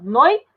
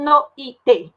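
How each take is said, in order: First: "noite" in two syllables, noi... te; "noite" split only after noi; diphthong kept together. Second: "noite" broken into no, i, te; "noite" with the diphthong pulled apart; wrongly split vowels. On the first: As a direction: glide oi as one syllable in "noite", pause before te. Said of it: "eu falo noite". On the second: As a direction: separate o from i in "noite" as three syllables. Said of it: "Eu não falo". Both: Shown as a demonstration.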